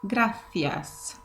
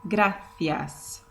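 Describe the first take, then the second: The two takes are said the same way.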